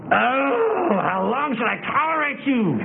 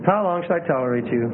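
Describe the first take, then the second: First: Hammed-up exasperated wail; high, overdone whine of reproach; acid. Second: Restrained, heartfelt reproach; sincere, understated weariness; Jesus, with feeling. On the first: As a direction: lament it bitterly, as a parody. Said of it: "you know he wasn't acid". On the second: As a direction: say it gently, without any acid. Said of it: "You know it wasn't unfeeling". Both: Shown as a demonstration.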